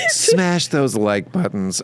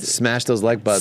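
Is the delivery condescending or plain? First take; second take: condescending; plain. First: It is said in a condescending, put-on voice. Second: It is said in a plain, ordinary voice.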